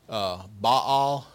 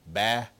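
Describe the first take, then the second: First: The vowel is not the one in bat. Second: The vowel is the one in bat. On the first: The speaker calls it wrong. "I've heard Baal for B-A-A-L" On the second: The speaker calls it right. "it's actually Baal. It rhymes with bat"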